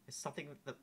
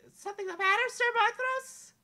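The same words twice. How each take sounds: First: Said in the usual way. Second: Princess Amelia voice. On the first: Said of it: "restarts in character". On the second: Acted. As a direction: sweetly ask the knight.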